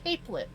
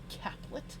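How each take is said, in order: First: The first syllable has a long 'ay' vowel. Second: The first syllable has a short 'a' vowel. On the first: The speaker calls it right. "I'm reading it wrong. Capelet" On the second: The speaker calls it wrong. "Not caplet"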